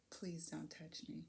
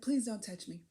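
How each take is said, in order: First: Soft and slow, held back; a hushed, measured plea to the driver; quiet request. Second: Said in the usual way. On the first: Retold or imitated. To the driver touching her back, soft and slow. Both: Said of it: "I said".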